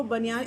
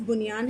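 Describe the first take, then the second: First: Said in the usual way. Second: بنیان said "bunyaan", with short u; original pronunciation. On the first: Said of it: "لیکن اس کو بنیان اتنا زیادہ کہا جانے لگا". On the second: Shown as a demonstration. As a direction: open بنیان on "bu", not "ba". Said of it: "اس میں بے کے اوپر پیش ہے". (بنیان، بے پر پیش کے ساتھ)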